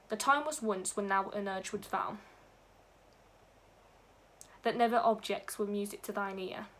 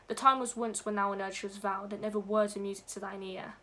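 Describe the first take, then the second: First: There is a break between 'vow' and 'that'. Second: 'Vow' runs straight into 'that' without a break.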